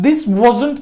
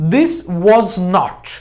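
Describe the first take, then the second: First: Was and not merge into one short word. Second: Was and not are said as separate words. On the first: "जब हम बोलते हैं तो हम short में बोलते हैं" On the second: "एक्चुअली ये है दिस वॉज नॉट"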